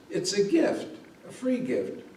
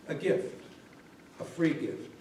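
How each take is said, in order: First: Said in the usual way. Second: Whispered, softer; a whispered "A gift, a free gift."; hushed repeat. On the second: A narrator's reading. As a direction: whisper it to yourself in wonder. Bunny repeats the words to himself.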